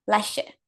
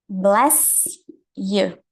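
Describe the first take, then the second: First: The s and y merge into an sh sound. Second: The two words are said separately. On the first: "a pronúncia disso é blusher" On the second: "encontrar escritos dessa forma aqui"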